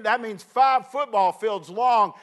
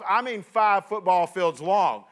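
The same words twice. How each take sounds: First: "five" leaned on, slow and drawn out; stress on five. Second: "five" leaned on, slow; stress on five again. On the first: Preacher stressing "five" to the congregation, slow emphasis. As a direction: stretch out "five football fields long" slowly. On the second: Preacher repeating the distance for emphasis, slow. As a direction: repeat "five football fields long" slowly with weight. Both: Shown as a demonstration. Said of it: "and I don't mean five football".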